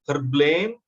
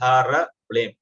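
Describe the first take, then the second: First: H and R join directly before blame. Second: A vowel separates the H and the R. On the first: This is the form used when chanting the mantra. "So while we are using it as a mantra, it's blame. Okay, H and R followed by blame" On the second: This is the printed form, written that way for easier pronunciation. "it is printed here as Hara Blame"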